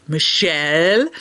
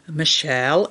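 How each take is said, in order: First: Slow, drawn-out mock scolding of the name; scolding doctor. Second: Said in the usual way. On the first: Doctor scolding his patient about donuts, slow and drawn out. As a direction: stretch "Michelle" like a disappointed doctor. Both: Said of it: "when he gets mad at me".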